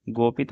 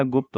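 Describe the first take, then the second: First: गोपित in two syllables, go-pit; wrong form. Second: Said in the usual way. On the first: Shown as a demonstration. Teacher shows students the error, गोपित with long o. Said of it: "नहीं होता". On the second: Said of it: "होता है".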